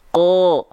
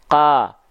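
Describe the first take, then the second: First: The vowel is a rounded O sound. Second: The vowel is an open A sound. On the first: The speaker calls it right. "tapi ko, ko dengan vokal O" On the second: The speaker calls it wrong. "bukan ka"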